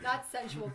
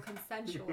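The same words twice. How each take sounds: First: Sensual said as a light contrast; stress on sensual. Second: Consensual with weight on the con; stress on consensual. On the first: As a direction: lean on sensual. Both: Shown as a demonstration.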